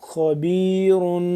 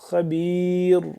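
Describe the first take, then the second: First: The word ends with an un sound. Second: The word ends on a plain r sound.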